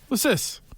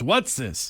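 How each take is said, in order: First: The T in "what's" is dropped. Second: The T in "what's" is clearly pronounced. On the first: The speaker calls it right. "You don't pronounce that T" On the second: The speaker calls it wrong. "then he goes, it's what's this? No, no, no"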